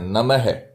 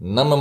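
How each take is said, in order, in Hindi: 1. शब्द के अंत में फुसफुसाती 'ह' ध्वनि है। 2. शब्द के अंत में कोई फुसफुसाती 'ह' ध्वनि नहीं है। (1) "नमः विसर्ग के साथ बोलना है, ये इसका सही उच्चारण है" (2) "नम मत बोल देना, कई लोग नम बोलते हैं"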